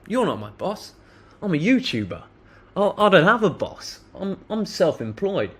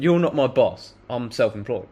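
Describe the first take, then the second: First: Higher, lightly amused defiance; mildly performed comeback, not a shout; retold defiant reply. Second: Said in the usual way. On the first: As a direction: brush him off with a mocking lift. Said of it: "I said that twice". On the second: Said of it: "but I said".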